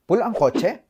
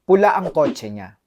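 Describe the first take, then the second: First: "¿Pula ang kotse?" with a high rise at the end; confirming rise. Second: Said in the usual way. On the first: Shown as a demonstration. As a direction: check that you heard right, voice climbing on "kotse". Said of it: "Estás confirmando porque no escuchaste bien". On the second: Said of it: "Juan dice".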